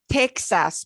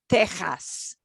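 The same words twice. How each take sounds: First: The middle consonant is not a throaty sound. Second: The middle consonant is a throaty H sound. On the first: The speaker calls it wrong. "And not Texas" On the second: The speaker calls it right. "pronounce them like the J ... the throaty H"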